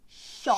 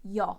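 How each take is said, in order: First: It begins with a sh sound. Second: It begins with a y sound.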